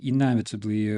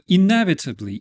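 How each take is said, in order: First: Said in the usual way. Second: Inevitably, said high and loud; emphatic inevitably. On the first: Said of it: "repeat of the loud take". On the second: Shown as a demonstration. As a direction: boom out inevitably dramatically. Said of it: "repeated lower right after".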